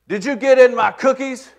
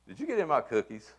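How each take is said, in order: First: It is asked loudly in an accusing tone. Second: It is asked as a plain, neutral question. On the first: The listener feels accused. "put her hands on her hips ... I began to feel accused ... by her tone ... her loud yelling question" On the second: It is simply a question. "it's not an accusation. It's a question"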